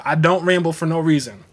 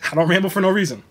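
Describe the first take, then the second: First: Said in the usual way. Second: Quicker, with a laugh, no leaned on; repeating it with a grin; stress on no. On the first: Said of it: "Shouts out to the". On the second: Shown as a demonstration. Restating to the viewers, no stressed.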